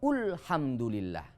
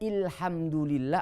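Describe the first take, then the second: First: The word begins with the vowel u. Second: The word begins with the vowel i. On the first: "Tidak boleh" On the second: "Tidak boleh"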